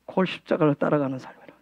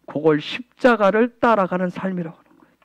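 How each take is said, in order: First: Much softer, quicker throwaway repeat; quiet fast echo. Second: Said in the usual way. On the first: Real, not acted. Pastor softly echoing his line to the congregation. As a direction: toss it off under the breath.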